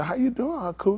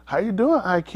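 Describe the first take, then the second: First: Own line demo. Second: Put-on child role demo. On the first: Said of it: "And I'm gonna say". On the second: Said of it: "So you gonna say". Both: Shown as a demonstration.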